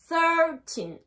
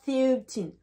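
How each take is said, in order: First: The first vowel sounds like 'er'. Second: The first vowel sounds like 'ee'. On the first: The speaker calls it right. "Et le I se prononce E" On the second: The speaker calls it wrong. "Pas thirteen"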